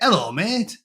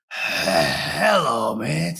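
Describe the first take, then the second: First: The H at the start is dropped. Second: The H at the start is strongly sounded. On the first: The speaker calls it right. "you don't pronounce the H" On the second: The speaker calls it wrong. "you don't go"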